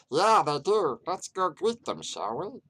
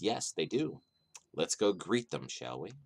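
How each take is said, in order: First: It is said in a put-on, goblin-like voice. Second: It is said in his natural voice.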